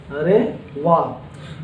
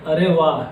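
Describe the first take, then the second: First: अरे वाह stretched long and soft, admiring; slow, admiring अरे वाह; drawn-out wow. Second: Said in the usual way. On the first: Shown as a demonstration. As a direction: savour अरे वाह slowly like real delight. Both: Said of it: "मतलब हो जाएगा".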